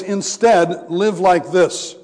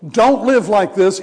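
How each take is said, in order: First: "instead live like this" slowed, stress on "like"; slow contrast answer. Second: "live" hit louder in "Don't live like this"; contrast stress on live. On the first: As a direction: answer the first half slowly, leaning on "like". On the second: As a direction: lean hard on "live" to set up the contrast. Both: Shown as a demonstration. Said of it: "This is a contrast".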